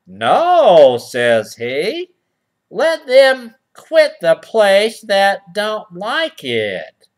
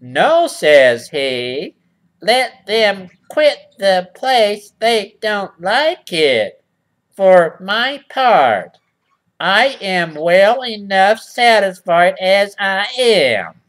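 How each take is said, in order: First: First read. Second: Slow, louder, put-on voice for the porcupine's refusal; slow, louder put-on porcupine voice on the reread; he drags out the porcupine's smug refusal. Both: Shown as a demonstration. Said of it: "let me read that again".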